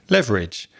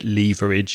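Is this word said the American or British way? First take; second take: American; British. First: It is said the American English way. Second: It is said the British English way. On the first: The speaker calls it right. "you pronounce it leverage" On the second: The speaker calls it wrong. "you don't pronounce it leverage"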